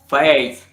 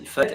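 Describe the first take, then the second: First: It is said with a Canadian French accent. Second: It is said with a France French accent. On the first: "in Canada" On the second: "in France"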